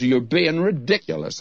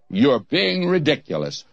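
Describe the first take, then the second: First: Said in the usual way. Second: Lightly imitated disdainful British preacher. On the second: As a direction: put on a touch of British disdain. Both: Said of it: "he said it in that British disdainful voice".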